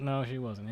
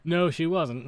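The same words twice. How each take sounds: First: Soft muttered repeat; quiet aside. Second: Said in the usual way. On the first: Shown as a demonstration. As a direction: say it again under your breath. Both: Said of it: "repeated softer".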